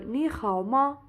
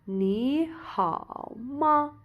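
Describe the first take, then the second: First: The phrase is said at a faster pace. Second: The phrase is said at a slower pace.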